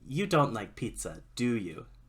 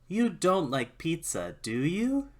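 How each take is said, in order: First: The pitch stays level or falls at the end. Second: The pitch rises at the end. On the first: The answer is probably no. "That's probably no" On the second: The answer is maybe no. "That's maybe no"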